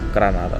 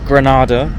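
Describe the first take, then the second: First: It is said the Spanish way, with a tapped r. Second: It is said with an English-style pronunciation. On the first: The speaker calls it right. "its real name, Granada, with a small r" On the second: The speaker calls it wrong. "it's just not how it, the name of the city is pronounced"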